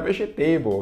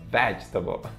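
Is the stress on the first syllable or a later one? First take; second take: later; first. First: The stress is on a later syllable. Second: The stress is on the first syllable. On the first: The speaker calls it wrong. "não é vegetable, ok? Vegetable não existe" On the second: The speaker calls it right. "No ve, vegetable"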